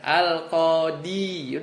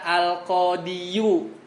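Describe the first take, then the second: First: The word ends on 'i' with nothing added. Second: The word ends with an added 'yu' syllable. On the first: The speaker calls it right. "jadi domahnya nggak ada" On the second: The speaker calls it wrong.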